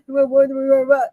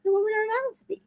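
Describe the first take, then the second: First: Joking. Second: Serious. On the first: Shown as a demonstration. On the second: Retold or imitated. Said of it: "He was serious".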